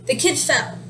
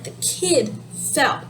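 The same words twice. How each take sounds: First: Said in the usual way. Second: Put-on "kid" drawn out, then a break before "fell"; stress on kid. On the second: Shown as a demonstration. Teacher showing the topic to learners, stress on "kid". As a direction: slowly, lean on "kid" as the topic. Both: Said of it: "emphasizing the kid".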